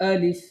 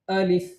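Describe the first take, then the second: Both takes have the same delivery.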